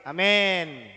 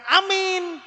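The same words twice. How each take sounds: First: Amin said lower as "amen"; correct pronunciation. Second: Amin drawn out high with a long ee; wrong pronunciation. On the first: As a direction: say "amin" as a-MEN with an e, falling. (amin diucapkan "amen", nada turun) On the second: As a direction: say "amin" as a-MIIIN, high and slow. (amin diucapkan "amiiin", tinggi dan panjang) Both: Shown as a demonstration. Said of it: "Jadi yang benar itu".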